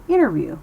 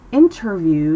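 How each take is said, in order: First: "interview" with no T, like "innerview"; dropped T. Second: "interview" with a crisp, full T; overpronounced T. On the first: Teacher models American speech, "interview" without its T. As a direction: let the N swallow the T in "interview". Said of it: "it keeps its voice down". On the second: Teacher shows what to avoid, hard T in "interview". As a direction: sound out the T in "interview". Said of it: "Instead of saying". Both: Shown as a demonstration.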